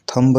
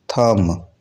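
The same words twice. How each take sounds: First: थंब said thumb with a b; थंब with a final b; wrong b sounded. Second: थंब said thum, no b; थंब ending on m; silent b. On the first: Teacher shows the wrong थंब with a b. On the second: Teacher shows थंब said thum. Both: Shown as a demonstration. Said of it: "थंब नहीं होता".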